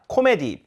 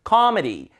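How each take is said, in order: First: The middle syllable has a full vowel. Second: The middle syllable is weakened to a schwa. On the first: The speaker calls it wrong. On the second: The speaker calls it right.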